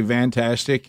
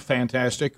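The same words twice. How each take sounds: First: "fantastic" said as "vantastic". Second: Said in the usual way. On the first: Retold or imitated. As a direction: open "fantastic" on a V, not an F. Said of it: "as Bub would say". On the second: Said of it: "or as Bub would say".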